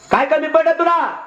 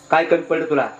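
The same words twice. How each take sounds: First: Much higher, wailing challenge; indignant outcry. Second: Said in the usual way. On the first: Acted. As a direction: cry it out in hurt outrage at your brother. Elder brother jumps up, protests.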